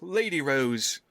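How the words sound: It is run together like a single word.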